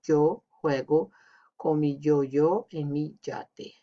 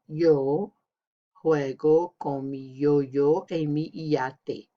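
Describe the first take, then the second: First: The letter y sounds like an English j. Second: The letter y sounds like an English y. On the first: "Option A is like in Spain or Argentina. It sounds like a J" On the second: "So it sounds more like the Y in English"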